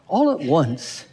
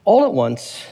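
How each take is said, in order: First: Slow, stretched-out repeat for effect; drawn-out echo. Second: Said in the usual way. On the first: Shown as a demonstration. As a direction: linger on each word of the phrase. Repeats verse phrase in mock wonder.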